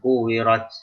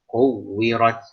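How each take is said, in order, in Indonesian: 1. Huruf W ganda diucapkan tanpa penekanan. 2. Huruf W ganda diucapkan dengan penekanan yang jelas.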